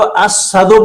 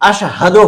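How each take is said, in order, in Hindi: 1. पहला व्यंजन साधारण 's' ध्वनि है। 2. पहला व्यंजन 'sh' ध्वनि है। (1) "जो असहदो बोलता है" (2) "अशहदो होना चाहिए"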